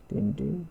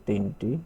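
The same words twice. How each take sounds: The two takes are said the same way.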